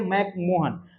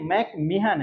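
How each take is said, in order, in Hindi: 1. दूसरा हिस्सा 'mohan' उच्चारित होता है। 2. दूसरा हिस्सा 'mehan' उच्चारित होता है। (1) "जैसे हर कोई बोलते हैं मैकमोहन" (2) "लेकिन मोहन नहीं है, मैकमेहन है"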